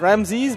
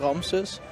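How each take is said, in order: First: The name is said the English way. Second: The name is said the native way. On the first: The speaker calls it wrong. "a lot of people say Ramses" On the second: The speaker calls it right. "it's actually Ramses"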